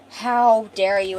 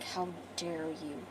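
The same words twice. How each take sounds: First: Loud, slow, drawn-out challenge, acted; mounting outrage. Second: Low, slow, hushed menace, acted; quiet outrage. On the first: Callum about to slam the killer, loud slow outrage. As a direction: spell out the outrage slowly and loudly. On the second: Callum to the killer, low slow quiet outrage. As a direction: say it very softly and slowly, threatening. Retold grieving man confronts the killer.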